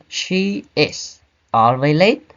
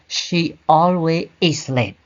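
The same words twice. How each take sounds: First: Slow careful model of the correct order; correct sentence. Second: Slow careful example of the wrong order; wrong sentence. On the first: Teacher modelling the correct sentence for students, slow and careful. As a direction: say it slowly as the right example. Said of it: "We say". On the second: Teacher showing students the wrong order, slow and deliberate. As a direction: say it slowly as the mistake to avoid. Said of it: "we don't say". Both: Shown as a demonstration.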